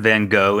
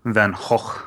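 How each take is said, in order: First: The name is said with an English pronunciation. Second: The name is said with a Dutch pronunciation.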